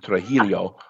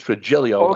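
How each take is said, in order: First: The middle consonant is a throaty Spanish H-sound. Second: The middle consonant sounds like an English J. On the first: The speaker calls it wrong. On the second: This is the Sicilian pronunciation. The speaker calls it right. "but it's Trujillo, like as if it was a J"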